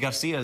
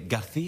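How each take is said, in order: First: The c is said like an s. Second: The c is said like a th. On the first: This is not how it is said in Spain. "they don't say Garcia" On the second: This is how it is said in Spain. "In Spain, ... they say Garcia"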